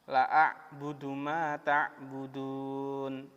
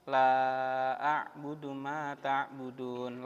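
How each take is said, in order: First: The vowel in the first word is short. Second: The vowel in the first word is long. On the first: I will surely worship what you worship. The speaker calls it wrong. "coba dibaca lamnya pendek" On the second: I do not worship what you worship. The speaker calls it right. "La-nya kan panjang"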